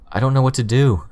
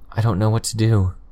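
First: It is said more loudly and clearly. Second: It is said very quietly, almost inaudibly. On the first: "said louder" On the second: "barely audible to myself"

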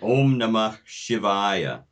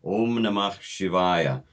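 No difference in how they are said.

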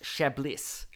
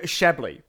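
First: It is pronounced differently from the wine name. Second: It is pronounced like the wine name. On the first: "apparently it's pronounced Shablis" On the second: "that's actually the way you pronounce this wine"

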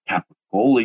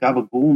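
First: It is said in a standard American pronunciation. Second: It is said in a South Philly Italian pronunciation.

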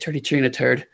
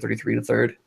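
First: The th sounds are said like t. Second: The th sounds are said as full th.

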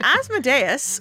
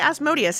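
First: The middle syllable does not sound like 'mode'. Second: The middle syllable sounds like 'mode'.

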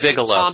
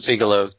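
First: The first syllable sounds like 'big'. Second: The first syllable sounds like 'beeg'. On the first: The speaker calls it right. "No, it's Bigelow" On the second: The speaker calls it wrong. "now I'm pronouncing it like Tom does"

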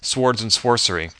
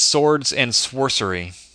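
First: The W in swords is pronounced aloud. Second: The W in swords is left silent. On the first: The speaker calls it wrong. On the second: The speaker calls it right.

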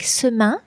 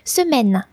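First: The word ends with a nasal vowel. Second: The word ends with a clear n sound. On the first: The speaker calls it wrong. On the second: The speaker calls it right.

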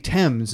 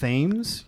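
First: The word begins with a plain t sound. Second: The word begins with a th sound. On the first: This is how the English actually say it. "because they say Thames" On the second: This is how it would be read from the spelling. "instead of Thames"

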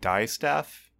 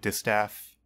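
First: The first syllable sounds like 'die'. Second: The first syllable sounds like 'dis'. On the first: "I guess it could be like die staff" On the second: "I don't know if I'm saying that right"

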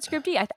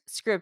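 First: The name ends with an extra 'ee' syllable. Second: The name ends on the 'd' sound. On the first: The speaker calls it wrong. "I've always said Scribd-y" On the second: The speaker calls it right. "I think you're right"

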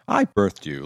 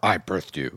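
First: It is said in a warm, proud tone. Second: It is said in an indignant, scolding tone. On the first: She is happy with her son. "like you're proud" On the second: She is upset with her son. "like how dare you"

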